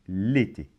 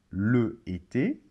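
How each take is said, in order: First: The vowel of le is dropped entirely. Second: The vowel of le is fully pronounced. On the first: The speaker calls it right. "mais on va dire" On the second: The speaker calls it wrong. "on ne va pas dire"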